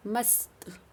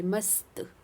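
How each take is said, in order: First: मस्त with the half स sounded clearly. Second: मस्त repeated, the half स held distinctly; clear half s. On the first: Teacher models मस्त for pupils, sounding the half स. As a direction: say मस्त slowly, letting the स be heard. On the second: Teacher repeats मस्त for pupils, stressing the half स. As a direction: model मस्त again with a clear स. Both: Shown as a demonstration. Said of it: "इसमें अध स की sound आ रही".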